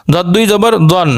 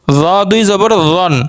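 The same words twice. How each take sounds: First: দন begun from the back of the tongue; heavy দ in দন, made with the tongue's root; tongue-root sound. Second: রন begun with a buzz at the tongue tip; first sound of রন made with the tongue's tip. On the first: Teacher drilling letter contrasts, tongue-root দন. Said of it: "একটা জিহ্বার গোড়া থেকে উচ্চারণ". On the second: Teacher drilling letter contrasts, tongue-tip রন. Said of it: "আর একটা জিহ্বার আগা থেকে উচ্চারণ". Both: Shown as a demonstration.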